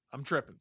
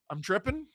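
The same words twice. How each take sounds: First: "I'm tripping." said low, soft and falling; falling statement. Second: "I'm tripping?" with the pitch rising on "tripping"; rising question. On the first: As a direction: state "I'm tripping." flatly, dropping at the end. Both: Retold or imitated. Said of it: "You told me I'm tripping".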